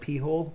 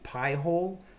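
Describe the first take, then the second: First: The first syllable sounds like 'pee'. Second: The first syllable sounds like 'pie'. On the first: The speaker calls it wrong. "She'll call it P-hole, but it's not P-hole" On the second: The speaker calls it right. "It's Pi-hole"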